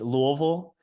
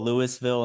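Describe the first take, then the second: First: It is said the way locals say it. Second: It is said another way outsiders say it. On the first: The speaker is from the city. "it's Louisville" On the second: The speaker is not from the city. "Louisville, and stuff like that"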